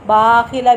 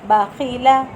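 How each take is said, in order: First: The first syllable is drawn out long. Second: All three syllables are kept short. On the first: The speaker calls it wrong. "बाखिला भी नहीं पढ़ना, बा लंबा हो जाएगा" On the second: The speaker calls it right. "तीनों हरफ लंबे नहीं होंगे"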